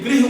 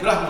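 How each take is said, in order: First: The first syllable is said as 'gri'. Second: The first syllable is said as 'gra'. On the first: This is the proper Sanskrit pronunciation. "लेकिन गृह उच्चारण है" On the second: This is how a regional speaker says it. "Madhya Pradesh में री को र बोलते हैं। आप अटल जी का भाषण सुन लीजिए, वो बोलते थे"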